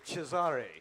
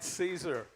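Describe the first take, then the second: First: The name is said with an Italian pronunciation. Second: The name is said with an English pronunciation.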